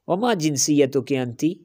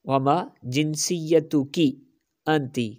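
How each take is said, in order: First: The phrase is spoken quickly, like normal conversation. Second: The phrase is spoken slowly and carefully, sound by sound.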